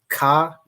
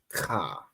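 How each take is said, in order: First: It starts with a hard stopped k sound. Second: It starts with a raspy throat friction sound. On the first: The speaker calls it wrong. "It's not ka. That would be like the the K A" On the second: The speaker calls it right. "it'd be like ka"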